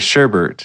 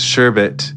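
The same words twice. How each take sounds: First: The second syllable has an added R sound. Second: The second syllable has no R sound. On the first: The speaker calls it wrong. "add an errant R in sherbet and say sherbet" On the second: The speaker calls it right. "I realize it's sherbet"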